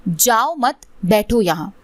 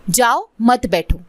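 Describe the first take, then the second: First: "जाओ मत" said together, then a break before "बैठो"; group "जाओ मत" as one phrase, pause, then "बैठो यहाँ"; pause after "मत". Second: Slow, with "जाओ" set apart, then "मत बैठो" together; "जाओ" alone, a break, then "मत बैठो" as a slow command; pause after "जाओ". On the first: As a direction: break the line right after "मत". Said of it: "उच्चारण के वजह से". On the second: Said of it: "सुनने में क्या आ गया". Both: Shown as a demonstration.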